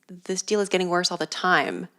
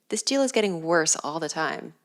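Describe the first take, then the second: First: The word time is strongly stressed, like Lando. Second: The word time carries no special stress.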